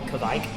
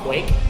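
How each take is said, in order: First: It begins with kv and rhymes with bike. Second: It begins with kw and rhymes with make. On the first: This is how other people commonly say it. "People call it Kvike" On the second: This is the reading-based pronunciation. "the way I've read it, it's pronounced quake"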